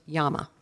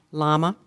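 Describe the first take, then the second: First: "llama" said with an opening y sound, YAH-muh; alternative pronunciation. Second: Said in the usual way. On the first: Shown as a demonstration. Pronouncer offering a speller the other form of the word, "llama" said YAH-muh. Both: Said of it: "or it could be pronounced".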